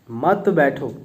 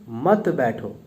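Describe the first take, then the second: The two takes are said the same way.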